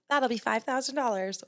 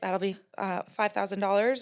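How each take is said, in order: First: It is said steadily and confidently. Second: It is said hesitantly, with a nervous filler.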